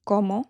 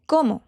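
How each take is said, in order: First: "como" with the first syllable CO stressed. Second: "como" said quickly with a different stress from the first take; contrasting stress. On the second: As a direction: say "como" a second way, shifting the stress. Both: Shown as a demonstration. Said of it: "do you see the difference?".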